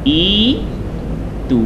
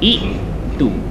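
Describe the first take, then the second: First: The first vowel is a long i sound. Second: A glottal stop separates the first vowels. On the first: This is how it is actually recited by the rule. "ikut kaedah ni hamzah bertemu dengan hamzah, sekiranya baris bawah maka akan jadi i-tu" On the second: This is the underlying original form. "asal sebutan dia ialah i-tu"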